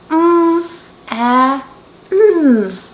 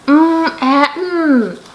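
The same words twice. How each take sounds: First: The sounds are said slowly and separately. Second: The sounds are said quickly, run together.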